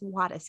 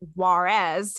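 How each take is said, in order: First: The name is said with a Spanish pronunciation. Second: The name is said with an American English pronunciation. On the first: The speaker calls it right. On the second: The speaker calls it wrong. "A lot of Americans like to pronounce it Juarez"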